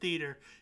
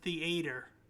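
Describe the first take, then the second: First: It is said in the ordinary, everyday way. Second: It is said in a posh, fancy way. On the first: "you don't even pronounce it theater" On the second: "You pronounce it theater. ... that's how you can tell how fancy you are"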